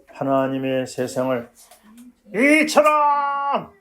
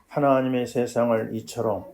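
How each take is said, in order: First: It is shouted loudly with strong force. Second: It is read in a plain, calm voice.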